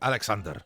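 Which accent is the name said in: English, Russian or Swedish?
Russian. It is said with a Russian accent.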